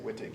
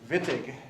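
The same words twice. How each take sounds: First: The word begins with a W sound. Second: The word begins with a V sound. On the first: The speaker calls it wrong. "you don't say Wittig" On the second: The speaker calls it right. "you say Wittig"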